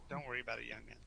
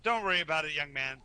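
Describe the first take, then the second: First: Same words dropped to a soft murmur; gentle fade, almost to himself; reassuring, softer. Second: Dwarf booms it out cheerfully; loud friendly reassurance, a pat on the knee; reassuring, louder. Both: Acted.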